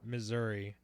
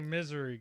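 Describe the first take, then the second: First: It is said as the usual Missouri. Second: It is said like the word misery. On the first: The speaker calls it right. "I know it's regularly Missouri" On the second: The speaker calls it wrong. "And I say misery, guys. I know it's not the proper pronunciation"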